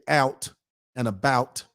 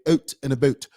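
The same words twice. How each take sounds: First: It is said in an American accent. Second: It is said in a Canadian accent. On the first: "They don't say out and about" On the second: "They say out and about"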